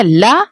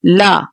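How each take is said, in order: First: ला clipped short, the wrong way; ला said short without the nasal ending. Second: ला said as the teacher's model; ला given its proper sound after the wrong one; correct la. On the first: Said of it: "Don't say ला". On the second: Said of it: "इसको पढ़ेंगे ला". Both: Shown as a demonstration.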